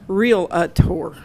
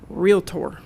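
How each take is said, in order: First: An extra vowel sounds between 'real' and 'tor'. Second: No extra vowel sounds between 'real' and 'tor'. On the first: The speaker calls it wrong. "You don't say real-a-tor" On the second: The speaker calls it right. "that's how you say it"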